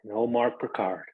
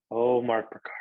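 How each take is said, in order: First: Said in the usual way. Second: Name whispered, nearly no voice. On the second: Real, not acted. Host thanking his co-host, whispering the name. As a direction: hush it to a whisper.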